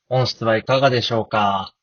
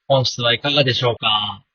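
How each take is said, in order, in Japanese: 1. 声は雑踏の音がなく聞こえます。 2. 声は駅の雑踏の音に重なって聞こえます。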